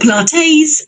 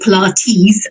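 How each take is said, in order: First: The name ends with a sound like 'latte'. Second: The name ends with a sound like 'tea'. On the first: "as in a latte" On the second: "as in a cup of tea"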